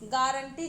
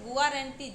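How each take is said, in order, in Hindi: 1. शब्द एक सादे 'ga' ध्वनि से शुरू होता है। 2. शब्द 'gu-a' ध्वनि से शुरू होता है। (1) "गारंटी जब आप पढ़ते हैं तो जी ए आपके दिमाग में बनता है" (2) "अगर आप गुआरंटी पढ़ लें अपने मन में तो गुआरंटी जी यू"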